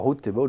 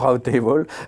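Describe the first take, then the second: First: The word route is said in a British accent. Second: The word route is said in an American accent. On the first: "Selon le vrai anglais" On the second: "selon l'accent américain"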